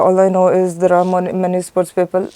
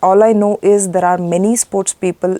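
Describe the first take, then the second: First: It is mumbled and hesitant, with the mouth barely open. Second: It is crisp and clear, with the mouth open. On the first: The speaker calls it wrong. "they don't open their mouth" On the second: The speaker calls it right. "Open your mouth and speak"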